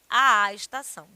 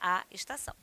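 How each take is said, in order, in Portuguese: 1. O som do 'a' se duplica em dois. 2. Um só som de 'a', com leve ênfase. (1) "e não à estação" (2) "Você só dá uma ênfase"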